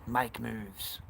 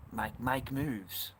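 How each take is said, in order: First: Said in the usual way. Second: Slow emphatic advice. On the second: Real, not acted. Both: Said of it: "See the flag".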